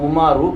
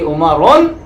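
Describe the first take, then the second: First: The word ends in a vowel without n. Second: The word ends with an added n sound. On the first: The speaker calls it right. "कहेंगे" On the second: The speaker calls it wrong. "नहीं कहेंगे"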